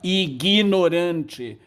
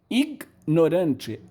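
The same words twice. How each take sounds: First: A short vowel is inserted between g and n. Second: The g and n are said together, no vowel.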